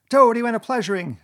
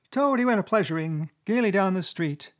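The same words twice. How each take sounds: First: Loud, high, frenzied Toad yell. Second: High-pitched weasel starting a taunting ditty; high squeaky voice. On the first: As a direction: yell it with injured pride. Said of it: "he yelled". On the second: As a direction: recite the song in a high squeak. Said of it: "began in a high, squeaky voice". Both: A narrator's reading.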